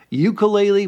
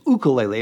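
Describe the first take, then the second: First: The word begins with a 'yoo' sound. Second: The word begins with a plain 'oo' sound. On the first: This is a common but incorrect way of saying it. The speaker calls it wrong. "some people call it" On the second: This is the correct way of saying it. The speaker calls it right. "the correct pronunciation is"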